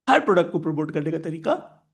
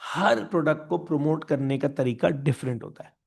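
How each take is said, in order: First: Rising, unfinished tune up to "तरीका"; fill-in prompt. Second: Said in the usual way. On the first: Shown as a demonstration. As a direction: leave "तरीका" hanging upward for the class to finish. Repeats rule as fill-in prompt.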